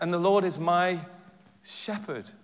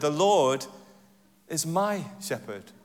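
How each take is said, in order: First: The stress is on "shepherd". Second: The stress is on "is".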